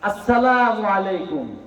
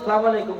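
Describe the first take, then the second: First: The greeting is said in full, opening syllable included. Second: The greeting is clipped, dropping the opening syllable. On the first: A proper, respectful greeting. The speaker calls it right. "আসসালামু আলাইকুম বলুন" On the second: A careless greeting. The speaker calls it wrong. "এই যে মহিলাদের মতো সালাম আলাইকুম না"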